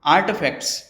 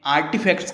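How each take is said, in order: First: आर्टिफैक्ट्स in American English with the T half swallowed; US accent. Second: आर्टिफैक्ट्स in Indian English with a full hard T; Indian accent. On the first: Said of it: "US accent में pronounce करना चाहे तो". (अमेरिकी लहजे में आर्टिफैक्ट्स) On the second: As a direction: Indian English आर्टिफैक्ट्स, every sound spelled out. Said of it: "Indian accent में आर्टिफैक्ट्स कहते हैं". (भारतीय लहजे में आर्टिफैक्ट्स) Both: Shown as a demonstration.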